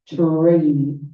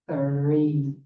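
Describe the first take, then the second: First: It starts with a t and a strong r. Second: It starts with the tongue between the teeth. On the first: "sounded like tree with a very strong R sound" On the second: "the tongue between your teeth"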